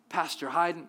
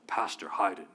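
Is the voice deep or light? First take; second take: light; deep. First: The voice is light and sweet. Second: The voice is put on low and deep. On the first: The speaker calls it wrong. "it starts out so sweet" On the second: The speaker calls it right. "No, it's like a deep voice"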